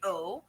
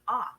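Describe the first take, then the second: First: The vowel is rounded and long, like 'oh'. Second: The vowel is open and short, like 'ah'. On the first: The speaker calls it wrong. "You don't say oh" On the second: The speaker calls it right. "you say ah"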